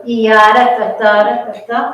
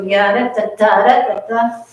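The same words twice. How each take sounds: First: "ya" sung with the accent on the first beat; first accent option. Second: "ya, da, da, da" with the accent moved later in the phrase; second accent option. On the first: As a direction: sing "ya, da, da, da" leaning on the opening "ya". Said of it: "do you wanna go". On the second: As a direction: sing the same pattern but shift the accent off "ya". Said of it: "or you wanna go". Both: Shown as a demonstration.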